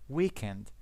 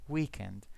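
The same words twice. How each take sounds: No difference in how they are said.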